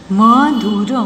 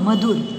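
First: Madhur stretched into separate sounds; syllable by syllable. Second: Said in the usual way. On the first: Shown as a demonstration. (मधुर को तोड़-तोड़ कर) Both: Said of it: "properly बोलना है".

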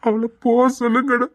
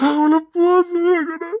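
First: Said in the usual way. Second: Higher, louder, breaking into tears on அவளை போக சொல்லுங்கடா; crying out. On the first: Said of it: "நான் அழுதுருவேன்டா". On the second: Acted. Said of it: "நான் கத்தி அழுதுருவேன்டா".

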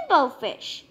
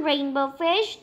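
First: Said in the usual way. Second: Rainbow Fish called out with a rising tune on fish; friends calling. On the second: Acted. Other fish calling Rainbow Fish to play, rising call. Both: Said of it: "they would call".

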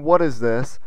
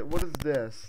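First: A light rising question, mimicking a curious viewer; mock viewer question. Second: Said in the usual way. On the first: A gamer echoing his viewers' question, with a light questioning lift. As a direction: echo the viewer's puzzled "What is this?" with a lift at the end. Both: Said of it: "You're asking".

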